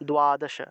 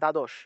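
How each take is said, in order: First: It starts with 'd' plus a 'u' glide. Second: It starts with a plain 'd' sound. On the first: The speaker calls it right. "উচ্চারণটা উ রূপে আসবে, তাহলে দ্বাদশ, দ্বাদশ এইভাবে" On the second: The speaker calls it wrong. "Bangla ভাষায় আমরা দ্বাদশ বলে ফেলি"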